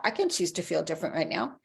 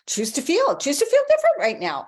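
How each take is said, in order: First: Said in the usual way. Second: Much higher and louder burst of enthusiasm; excited urging. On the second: Shown as a demonstration. Coach urging viewers to choose new feelings, excited and loud. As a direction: pump up the line like a cheer.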